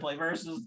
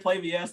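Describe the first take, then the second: First: VS is spoken as the word versus. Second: VS is spoken as two separate letters. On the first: The speaker calls it right. "they are play versus" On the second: The speaker calls it wrong. "they're play V S"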